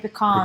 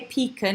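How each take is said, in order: First: It is said with an American pronunciation. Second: It is said with a British pronunciation. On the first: "They say pecan" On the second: "We say pecan"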